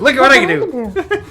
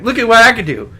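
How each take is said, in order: First: Put-on high squealing kid voice, laughing; whiny show-off child, much higher; Stewart from Mad TV. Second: Put-on high whiny childish voice; squeaky kid showing off; Stewart from Mad TV. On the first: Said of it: "it's like a Stewart move". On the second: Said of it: "who was the guy on Mad T V that would be like".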